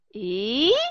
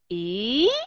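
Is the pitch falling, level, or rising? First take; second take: rising; rising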